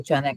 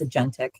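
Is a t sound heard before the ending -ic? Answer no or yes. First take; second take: no; yes. First: The word is said without a t sound. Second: The word is said with a t sound. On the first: The speaker calls it wrong. "I know I pronounce it wrong. I say agenic" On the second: The speaker calls it right. "I think it's agentic"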